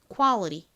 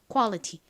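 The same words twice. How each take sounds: First: The middle t is flapped, sounding like r. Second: The middle t is a clear, crisp t. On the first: "이렇게 마구마구 꼬아서 발음을 해요" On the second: "꼬지 않고 정직하게"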